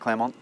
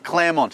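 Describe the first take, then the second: First: The final T sound is dropped. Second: The final T sound is clearly pronounced. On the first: The speaker calls it wrong. "not Claremont" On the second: The speaker calls it right. "Really important you pronounce the T"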